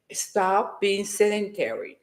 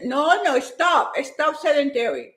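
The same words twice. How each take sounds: First: Lower, slow and settled; deliberately calm advice. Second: Quick, excited push; real hyper energy. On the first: Shown as a demonstration. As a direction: say it calmly, not hyped. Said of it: "this is the calm me". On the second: Real, not acted. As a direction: fire it out full of energy. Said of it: "I'm too hyper".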